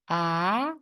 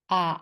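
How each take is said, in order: First: The pitch rises from middle to high. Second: The pitch dips low then rises. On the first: "And how about the second one?" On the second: "And how about the third one?"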